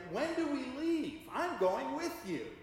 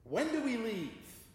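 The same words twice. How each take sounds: First: Much higher and louder, pressing the question; wife pressing her husband, higher and more insistent; insistent wise wife. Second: Wise wife asks. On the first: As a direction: repeat it, now insisting. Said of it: "She said again". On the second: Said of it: "the wise wife said". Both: Retold or imitated.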